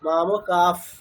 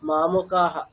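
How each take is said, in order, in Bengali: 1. শব্দটি একটি নরম f-এর মতো শ্বাসে শেষ হয়। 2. শব্দটি একটি প্রতিধ্বনিত h ধ্বনিতে শেষ হয়। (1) "শিকড়কে সন্ধি করতে হবে" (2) "ওখানে বিসর্গ বলা যাবে না"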